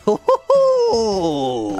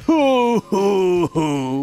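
First: The first two hoos are short. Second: All three hoos are long and drawn out.

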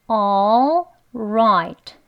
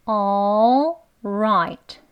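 No difference in how they are said.

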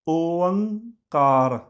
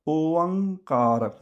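No difference in how they are said.

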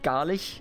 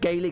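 First: The word is pronounced the German way. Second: The word is pronounced the English way. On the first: "We obviously pronounce it Gaelic in German" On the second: "It slips off the tongue when you do it in English"

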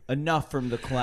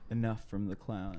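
First: It is said at a louder volume. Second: It is said at a softer volume.

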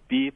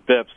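First: It is said as one word rhyming with sleeps. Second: It is said as one word rhyming with lips. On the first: The speaker calls it wrong. "Some people, I guess, go beeps" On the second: The speaker calls it right. "It's BIPS"

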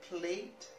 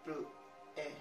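First: The final T sound is pronounced. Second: The final T sound is silent. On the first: The speaker calls it wrong. "In English, I guess you should have say like maybe vous and plate" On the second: The speaker calls it right. "Both of them are not pronounced in French"

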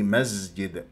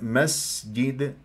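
First: The s sound is voiced like a z. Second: The s sound is a clear breathy hiss. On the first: The speaker calls it wrong. "حتى لا يصير عندي مسجد وتجينا في الاخطاء" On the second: The speaker calls it right. "شوف انطينا الهمس، جريان الصوت"

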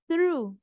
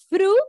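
First: It begins with a 'th' sound, tongue near teeth. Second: It begins with a plain 't' sound. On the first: The speaker calls it right. "I use your tongue near your teeth" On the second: The speaker calls it wrong. "No, honey"

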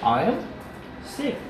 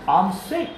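First: The pronoun and verb are said as two words. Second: The pronoun and verb are contracted into one syllable. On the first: This is the full written form. "I am" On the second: This is the natural spoken form. "in spoken form it's I'm sick"

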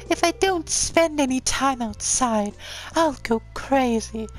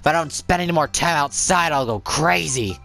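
First: It is said in a put-on character voice. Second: It is said in a plainer, less put-on voice.

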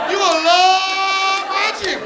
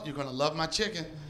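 First: A casual, put-on, exaggerated voice. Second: A polished, careful, trained voice. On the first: This is the voice used to sell the chicken. The speaker calls it right. "we ain't gonna sell no chicken with that voice. You got one more chance" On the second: This is how she naturally read it. The speaker calls it wrong. "She tried to read it her way"

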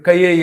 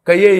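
First: The vowel e follows with no y glide. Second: A y glide comes before the vowel e. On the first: The speaker calls it right. "క ఏ ఇక్కడి నుంచి పలకాలి. ఏ అనాలి" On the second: The speaker calls it wrong. "ఆ ఏ అలా చదవకూడదు. ... అది యా యా చదువుతున్నాడు వాడు. తాలువుతో చదువుతున్నాడు"

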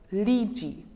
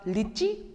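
First: The vowel after the L is long. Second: The vowel after the L is short. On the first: "after L in English, we pronounce it for a longer time" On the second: "in French, I is pronounced for a shorter time"

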